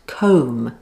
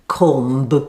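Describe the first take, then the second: First: The word ends with no B sound. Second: The word ends with a B sound. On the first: The speaker calls it right. "comb has a silent B at the end, so it's pronounced comb" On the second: The speaker calls it wrong. "not comb"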